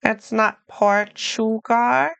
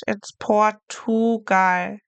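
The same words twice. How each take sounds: First: Portugal with a ch sound, Portuchal; wrong Portugal. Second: Portugal with a clear hard t, slowly; German Portugal. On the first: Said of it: "like a C H". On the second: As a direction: say Portugal the German way, every letter. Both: Shown as a demonstration.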